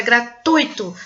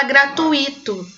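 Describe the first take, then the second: First: Gratuito as gra-TÚI-to, stress on UI; correct stress. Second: Gratuito split as gra-tu-Í-to, stress on the I; wrong stress. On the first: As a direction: say gratuito in three syllables with UI as one glide. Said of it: "A sílaba tônica é no ui". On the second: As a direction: say gratuito in four syllables, hitting the I. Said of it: "Como se o i fosse a". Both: Shown as a demonstration.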